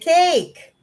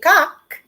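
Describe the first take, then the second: First: The vowel is a long "ay" sound. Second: The vowel is an open "ah" sound. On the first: The speaker calls it right. "you say cake" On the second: The speaker calls it wrong. "you don't say cock"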